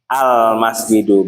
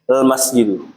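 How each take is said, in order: First: The word begins with an a vowel. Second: The word begins with a bare l sound. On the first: This is the later form, easier to start with. The speaker calls it right. "dibantu pakai huruf apa? Alif" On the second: This is the older form, hard for Arabs to start with. The speaker calls it wrong. "yang ada lam ta'rif doang ... lam doang, jadi nggak ada alifnya"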